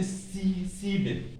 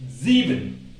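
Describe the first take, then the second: First: Sieben begun with a sharp s, as in "see"; false start, then sieben with voiceless s; wrong pronunciation. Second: Sieben opened with a buzzing z, "zee-ben"; correct German pronunciation. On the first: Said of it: "Don't say". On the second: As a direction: model sieben with a voiced z, louder. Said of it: "the S is pronounced Z". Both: Shown as a demonstration.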